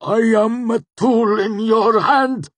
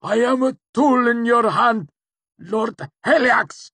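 First: High, loud, slow cry of pain; tortured wail, straining at the top of the voice; agonized cry. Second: Very high, loud tortured plea; crumpling, desperate scream of obedience; agonized, submissive cry. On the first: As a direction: gasp it out like a wounded animal. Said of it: "he convulsed and cried out, sounding more like a wounded animal". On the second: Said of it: "Cinder amended as he crumpled". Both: A narrator's reading.

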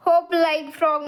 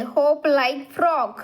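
First: Said in the usual way. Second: Very slow, word by word; slow reading. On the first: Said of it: "म्हणजे काय?". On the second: Shown as a demonstration. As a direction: read "Hop like frog." out slowly for kids. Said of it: "Hop like frog म्हणजे काय?". (हळू, स्पष्ट वाचन)

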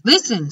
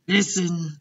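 First: LISTEN higher and louder, falling; insistent repeat. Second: Said in the usual way. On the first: Acted. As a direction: press LISTEN firmly to get attention. Second, more insistent take.

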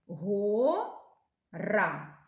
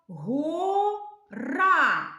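First: Said in the usual way. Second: Гора with the final А drawn out long, high and loud; stress on гора. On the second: Shown as a demonstration. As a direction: stretch the stressed А in гора for the children. (наголос на А у слові гора, протяжно) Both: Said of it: "Який звук ми тягнемо голосом?".

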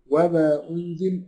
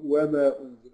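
First: وما with the long madd stretched slowly. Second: وما with only a short two-beat vowel; short madd. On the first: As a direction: hold the vowel in وما long and slow. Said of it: "يجوز إن أنا أمده". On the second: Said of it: "ويجوز إن أنا أقصره". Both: Shown as a demonstration.

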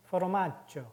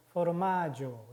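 First: 포르마조 with a stopped, doubled j sound; double G. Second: 포르마조 with a short single j sound. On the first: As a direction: say 포르마조 as "for-mad-jo", a catch before the j. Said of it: "두 개가 있기 때문에". (포르마조를 '맛-조'처럼 끊어서) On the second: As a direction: say 포르마조 as "for-maa-jo", open vowel before the j. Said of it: "G가 하나밖에 없었으면". (포르마조를 받침 없이 '마-조'로) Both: Shown as a demonstration.

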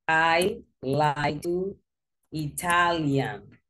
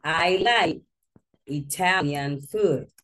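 First: Slow, deliberate I like to Italian, words spaced out; quoting the student's error word by word; slow wrong example. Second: I like Italian food, a bit slow, food stressed; teacher giving the fix; corrected model sentence. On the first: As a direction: lay out the learner's mistake slowly. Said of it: "But you say Italian". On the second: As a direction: model the right sentence clearly. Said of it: "you need to change the sentence". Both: Shown as a demonstration.

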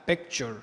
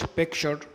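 First: "picture" as pek-cher, with a full ch; ture as cher. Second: "picture" as pek-sher, sh replacing ch; wrong sh pronunciation. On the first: Teacher correcting the mistake, "picture" as pek-cher. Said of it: "لا، picture". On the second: Teacher showing what not to say, "picture" as pek-sher. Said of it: "ما نقولش picture". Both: Shown as a demonstration.

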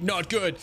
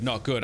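First: "not good" restated higher; emphatic repeat. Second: Said in the usual way. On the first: Real, not acted. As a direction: raise the pitch on "not good" to press the warning.

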